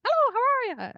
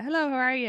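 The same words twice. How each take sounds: First: Put-on very high, loud parroted Irish accent; exaggerated Irish accent, mocking and shrill-high; mimicked Irish accent. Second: Said in the usual way. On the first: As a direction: squawk back a mock Irish accent like a parrot. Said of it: "it's like they're a parrot". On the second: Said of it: "mimic your accents".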